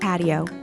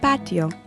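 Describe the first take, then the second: First: It is said with an English accent. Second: It is said with a Spanish accent. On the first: "In English, we say patio" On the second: "In Spanish, we say patio"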